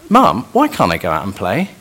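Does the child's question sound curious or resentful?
curious. It is asked in a sincere, curious tone. The child genuinely wants to understand the reason. The speaker calls it right. "The first question is a looking for wisdom and understanding"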